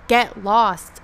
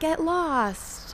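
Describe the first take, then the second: First: It is said in a harsh, aggressive tone. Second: It is said in a gentle, friendly tone. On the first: Telling someone to go away. The speaker calls it wrong. "instead of like get lost, loser" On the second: An invitation to wander along with the speaker. The speaker calls it right. "When I say get lost, I mean like get lost"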